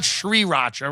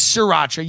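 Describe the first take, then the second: First: Sriracha with a clear "sree" at the start; wrong pronunciation. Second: The corrected "sriracha", almost "see-rah-cha"; corrected pronunciation. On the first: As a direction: say "sriracha" the mistaken way, sounding the first r. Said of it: "It's not sriracha, right?". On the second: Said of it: "It's sriracha". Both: Shown as a demonstration.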